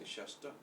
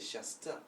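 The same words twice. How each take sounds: First: The t is made with the tongue lifted back. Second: The t is made with the tongue forward. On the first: The speaker calls it right. "we say shasta" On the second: The speaker calls it wrong. "We don't say shasta"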